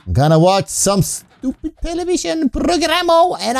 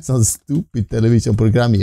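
First: "programo" with an added jokey -o ending; goofy "programo" instead of program; silly mispronunciation. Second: Said in the usual way. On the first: Shown as a demonstration. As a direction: stretch "programo" with a playful o at the end.

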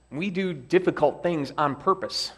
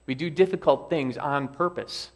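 First: "do" lifted and hit firmly; stress on do. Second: "difficult" stands out with a falling end; stress on difficult. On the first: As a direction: lean hard on "do", the rest flowing. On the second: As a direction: press on "difficult" and let the line fall. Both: Shown as a demonstration.

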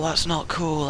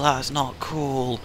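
First: Said in the usual way. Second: Dragged out, quiet and slow; slow disappointed repeat. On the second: Shown as a demonstration. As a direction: let it sink in slowly.

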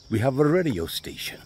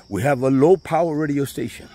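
First: Said in the usual way. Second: Low-power louder and higher, leaned on; stress on low-power. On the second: Real, not acted. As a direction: hit the word low-power hard as a correction.

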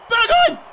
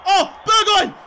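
First: Very high, loud squeal of the name, rising at the end; thrilled shriek. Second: High, loud cry of the player's name; excited call. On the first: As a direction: shriek the player's name as the shot flies. Second, higher call to player. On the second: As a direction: cheer the player on, loudly. Calling to player shooting. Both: Real, not acted.

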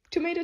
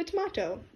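First: Said in the usual way. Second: "tomato" said tom-AH-to; alternate pronunciation. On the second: Shown as a demonstration. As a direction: stretch the middle of "tomato" to "ah". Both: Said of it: "There is no alternate pronunciation".

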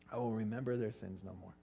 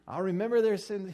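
First: Said in the usual way. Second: Mock husband grudge. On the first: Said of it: "He called himself a husband". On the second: Mock husband selective memory.

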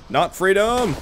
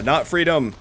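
First: "Not freedom!" yelled like a battle cry; mock battle cry. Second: Said in the usual way. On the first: Gamer mocking his own battle cry, yelled "Not freedom!". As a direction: shout "Not freedom!" as a joke charge. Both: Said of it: "every time I've yelled freedom".

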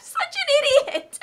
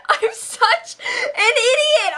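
First: Said in the usual way. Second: Slow, high crying wail. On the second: Pretend. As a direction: drag it out in a mock sob. Repeats it wailing.

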